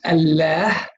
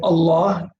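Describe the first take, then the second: First: The L sound is light and thin. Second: The L sound is heavy and full-mouthed. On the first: "it becomes Allah when there's a kasra right here" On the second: "instead of saying Allah"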